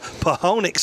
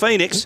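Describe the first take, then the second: First: It is read letter by letter, starting with p. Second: It is said normally, starting with an f sound. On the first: "That's how you physically pronounce it" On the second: "but it's Phoenix"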